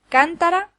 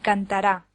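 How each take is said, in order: First: The stress is on the first syllable. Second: The stress is on the last syllable. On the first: It names a vessel. "La primera es una vasija" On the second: It is a future verb form. "la tercera es el futuro de indicativo del verbo cantar"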